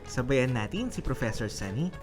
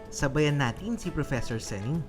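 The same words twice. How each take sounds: The two takes are said the same way.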